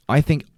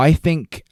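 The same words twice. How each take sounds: The two takes are said the same way.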